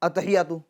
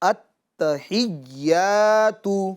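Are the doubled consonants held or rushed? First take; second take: rushed; held. First: It is said quickly with the doubled consonants shortened. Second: The doubled consonants are held and pressed with force. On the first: The speaker calls it wrong. "इतना जल्दी पढ़ लेते हैं" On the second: The speaker calls it right. "ता पर भी ज़ोर डालना है और या पर भी ज़ोर डालना है"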